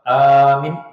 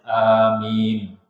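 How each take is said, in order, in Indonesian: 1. Vokal pertamanya dibaca pendek. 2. Vokal pertamanya dibaca panjang. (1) "amin itu orang yang aman" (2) "A-nya panjang, min-nya juga panjang"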